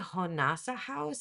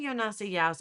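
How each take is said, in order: First: Each J is said as an H sound. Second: Each J is said as a Y sound. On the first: The speaker calls it right. "the J has the h sound in Spanish too. So it should be" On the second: The speaker calls it wrong. "I'm pronouncing the J like a ya sound in Spanish"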